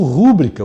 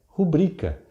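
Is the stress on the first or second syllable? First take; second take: first; second. First: The stress is on the first syllable. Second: The stress is on the second syllable. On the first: The speaker calls it wrong. "E pronuncio rúbrica, o que é pior ainda. Eu faço a palavra como proparoxítona" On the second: The speaker calls it right. "A sílaba tônica é a penúltima"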